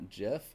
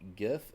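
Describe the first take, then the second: First: The word begins with a j sound. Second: The word begins with a hard g sound. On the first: The speaker calls it wrong. "not JIF, because I'm not a peanut butter" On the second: The speaker calls it right. "it is"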